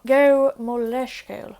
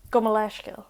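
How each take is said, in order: First: Slow it down for learners; slow, louder repeat. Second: Said in the usual way. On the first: Shown as a demonstration. Teacher repeats Go mo leiscill slowly and louder for learners.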